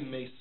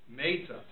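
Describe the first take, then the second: First: The stress is on the second syllable. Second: The stress is on the first syllable. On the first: The death is happening right now. The speaker calls it wrong. "if you were to say mesa alai Rachel" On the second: The death happened in the past. The speaker calls it right. "On the first syllable, not on the second syllable"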